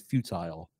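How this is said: It is pronounced the British way. "British people say futile"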